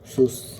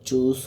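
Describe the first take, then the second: First: The word begins with an s sound. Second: The word begins with a ch sound. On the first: The speaker calls it wrong. "উচ্চারণ করছে সুস" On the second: The speaker calls it right. "এই চুজটাকে"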